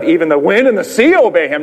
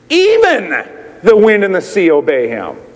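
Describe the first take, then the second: First: Wind and sea carry the main stress. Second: The word even carries the main stress. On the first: It is the wind and sea that obey him. The speaker calls it wrong. "Usually we read the emphasis on the wind and the sea" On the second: Even nature itself obeys him. The speaker calls it right. "the emphasis should be on the word even"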